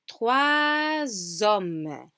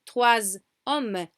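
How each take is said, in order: First: A Z sound links the two words together. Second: The two words are said without a linking Z. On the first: The speaker calls it right. "we say trois hommes" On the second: The speaker calls it wrong. "we don't say trois hommes"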